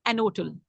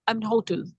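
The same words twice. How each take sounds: First: "एन होटल" run together as an-otel; dropped H. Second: "एन होटल" slowly, with H audible in hotel; sounded H. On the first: Teacher imitating some native speakers, "एन होटल" with H dropped. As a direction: say "एन होटल" softly with the H silent. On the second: Teacher comparing readings for students, "एन होटल" with H sounded. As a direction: say "एन होटल" keeping the H. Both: Shown as a demonstration. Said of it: "वो बाज़ एज को हटा देते हैं".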